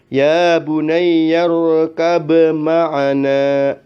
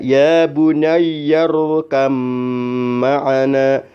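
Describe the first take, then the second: First: The b is pronounced separately before m. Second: The b fully merges into a doubled m. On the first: The speaker calls it wrong. "Tidak boleh" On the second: The speaker calls it right. "maka dibacanya"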